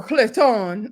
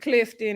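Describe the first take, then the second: First: "Clifton" drawn out slowly, second syllable stretched; alternative pronunciation. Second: Said in the usual way. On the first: Shown as a demonstration. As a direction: say "Clifton" slowly, leaning on a long "-ton". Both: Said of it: "or Clifton".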